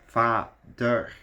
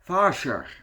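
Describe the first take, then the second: First: The word is said with a plain 'd' sound. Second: The word is said with a 'rsj' sound. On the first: The speaker calls it right. "you pronounce it as Vader" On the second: The speaker calls it wrong. "Not Varsjar"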